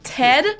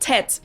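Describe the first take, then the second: First: The final D is voiced, English style. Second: The final D sounds like T, German style.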